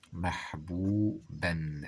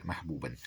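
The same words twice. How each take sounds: First: محبوبًا slowly split as mah-boo-ban; syllable by syllable. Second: Said in the usual way. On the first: Shown as a demonstration. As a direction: sound out محبوبًا, ending on a clear "n". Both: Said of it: "هكذا".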